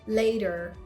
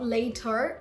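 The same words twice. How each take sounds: First: The middle T is a very soft D. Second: The middle T is a hard, clear T. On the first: The speaker calls it right. "It's a very soft duh" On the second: The speaker calls it wrong. "Not later. No"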